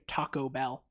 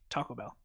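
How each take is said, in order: First: The two words are said separately. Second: The two words run together as one. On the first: The speaker calls it wrong. "You don't come around me saying Taco Bell" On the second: The speaker calls it right. "It's one word"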